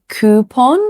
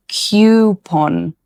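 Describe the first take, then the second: First: Coupon said KOO-pon; American coupon. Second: Coupon said slowly as KYOO-pon; other coupon. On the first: Teacher gives the first accepted coupon. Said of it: "You can say". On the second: Teacher slowly gives the second accepted coupon. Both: Shown as a demonstration.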